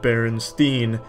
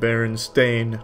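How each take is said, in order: First: The last syllable sounds like 'steen'. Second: The last syllable sounds like 'stain'. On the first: "not Berenstein" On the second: "it's always been the Berenstain Bears"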